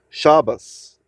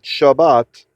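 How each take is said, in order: First: The word ends with an S sound. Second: The word ends with a T sound.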